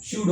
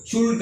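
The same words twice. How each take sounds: First: शुड with a silent L, shud; correct pronunciation. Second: शुल्ड with the L sounded, shuld; wrong pronunciation. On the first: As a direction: say शुड without any L sound. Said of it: "एल is a silent है". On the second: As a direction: say शुल्ड pronouncing the silent L. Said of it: "तो शुल्ड नहीं कहने का". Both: Shown as a demonstration.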